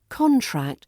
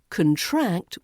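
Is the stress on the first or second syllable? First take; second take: first; second. First: The stress is on the first syllable. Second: The stress is on the second syllable.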